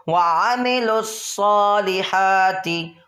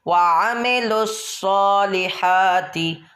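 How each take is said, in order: No difference in how they are said.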